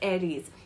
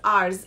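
First: The e is pronounced. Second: The e is silent. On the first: The speaker calls it right. "but then it's pronounced as Ares" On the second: The speaker calls it wrong. "it looks as if it's Ars"

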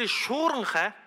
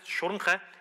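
First: The first vowel is said long. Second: The first vowel is said short. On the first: The root means to storm or wind. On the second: The root means to crawl in.

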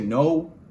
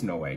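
First: The name sounds just like the word 'no'. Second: The name sounds different from the word 'no'. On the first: This is how some other people say it. "Some people say no" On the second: This is how the speaker believes it is said. "I think it's Noe"

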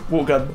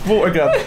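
First: The words are slurred together and the T is dropped. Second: Every sound, including the T, is clearly pronounced.

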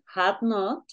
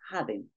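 First: It is said as two full separate words. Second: It is said as one short contracted word. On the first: "Puedes decir had not" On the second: "forma corta o abreviada"

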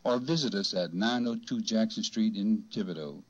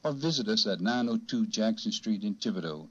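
First: It is read at a slower pace. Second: It is read at a faster pace.

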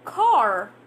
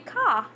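First: It is said with an American rolled R. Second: It is said British-style with no R sound.

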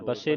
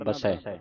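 First: The word ends in an 'e' vowel. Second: The word ends in an 'ai' vowel. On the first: The speaker calls it wrong. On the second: The speaker calls it right.

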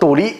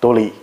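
First: It is said with Henan dialect tones. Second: It is said with Sichuan dialect tones. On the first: "在河南话里呢，它只被派入阴阳平" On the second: "四川话呢，他们又全被神奇的归入到他们的阳平"

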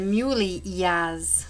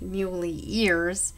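First: The name is said with a Jamaican pronunciation. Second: The name is said with a standard American pronunciation. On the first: This is how people in Jamaica say it. "In Jamaica, you might say Muley Ears" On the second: This is how it is said outside Jamaica. "instead of Muley Ears"

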